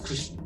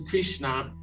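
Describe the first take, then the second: First: The final vowel is nearly dropped. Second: The final vowel is fully pronounced. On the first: The speaker calls it right. "you're not even supposed to pronounce the A" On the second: The speaker calls it wrong. "The West is Krishna, that's not"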